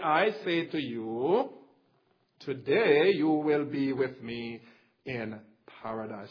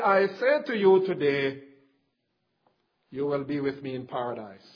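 First: The pause comes right before the word today. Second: The pause comes right after the word today. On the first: Today marks when the man will be in paradise. "we read it like this" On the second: Today marks when the statement is being made. "They put it at this point"

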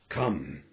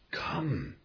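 First: The word is said firmly, as an order. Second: The word is said warmly and gently. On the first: It is a duty that must be obeyed. "can you hear the command in this voice?" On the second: It is a friendly invitation. "Did you feel the warmth there?"

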